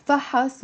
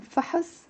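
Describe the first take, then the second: First: فحص as fa-has. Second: Soft, high فحص with a faint second vowel; فحص, weight on fa, short "uh"; noun form. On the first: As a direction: give فحص a full "a" after ح. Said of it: "with a a". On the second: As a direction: say فحص together as fa-hus. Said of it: "the difference here". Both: Shown as a demonstration.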